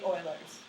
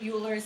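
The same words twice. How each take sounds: First: The name is said differently from its spelling. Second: The name is said the way its spelling suggests. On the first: The speaker calls it right. "it's actually Euler's" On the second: The speaker calls it wrong. "It looks like you want to pronounce it Euler's"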